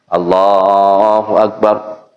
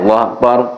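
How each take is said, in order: First: The phrase is drawn out with long vowels. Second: The phrase is said short and quick. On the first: "baca panjang lah, sesuai aturan tajwid" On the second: "dibaca pendek"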